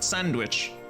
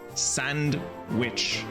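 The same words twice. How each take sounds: First: It is said like the everyday food word. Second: It is said as two words, sand and witch. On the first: It names the bread snack. The speaker calls it wrong. "Not Sandwich" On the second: It names a witch who lives in sand. The speaker calls it right. "Like a witch who lives in a desert. A witch of sand"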